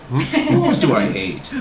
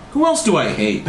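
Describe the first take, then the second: First: Mild mock scream; slow, drawn-out mock desperation; understated desperate cry, stretched out. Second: Higher-pitched self-questioning; a character wondering aloud to herself; lightly voiced question to self; asking herself. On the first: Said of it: "Margaret screamed in desperation". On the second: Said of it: "she asked herself". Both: A narrator's reading.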